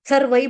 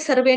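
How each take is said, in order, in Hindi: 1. शब्द का अंत सरकने वाले 'ai' संध्यक्षर से होता है। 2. शब्द का अंत सामान्य 'e' स्वर से होता है। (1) "यहाँ पे दो मात्रा, सर्वई बोलेंगे" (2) "सर्वे नहीं बोलेंगे"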